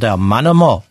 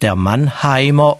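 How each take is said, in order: First: The middle syllable is reduced to a short em. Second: The middle syllable is said in full as heim. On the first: "sondern der Mannemer" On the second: "Wir sagen ja auch nicht der Mannheimer"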